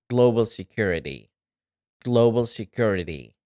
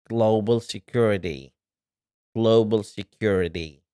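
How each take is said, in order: The two takes are said the same way.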